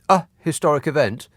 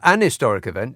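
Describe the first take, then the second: First: A glottal stop breaks the words before 'historic'. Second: The words run smoothly together into 'historic'. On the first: The speaker calls it wrong. "there's a glottal stop in it... you can't run those words together" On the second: The speaker calls it right. "it just rolls"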